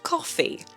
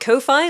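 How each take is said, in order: First: The word sounds just like the drink 'coffee'. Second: The second syllable rhymes with 'hi', like hi-fi. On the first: The speaker calls it right. "apparently it's pronounced coffee" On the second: The speaker calls it wrong. "I want to pronounce it Ko-Fi, like hi-fi"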